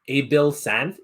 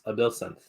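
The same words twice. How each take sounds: First: The vowels are enunciated heavily and fully. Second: The vowels are enunciated lightly, not fully. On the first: The speaker calls it wrong. "I know it's not" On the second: The speaker calls it right. "not heavily enunciate the vowels"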